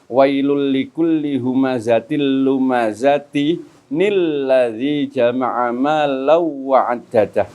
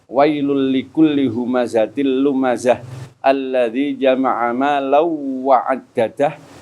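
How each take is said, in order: First: Lumazati runs straight into an added n before lladzi. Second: Lumazah ends with h, then alladzi starts fresh.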